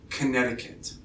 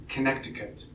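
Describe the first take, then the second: The two takes are said the same way.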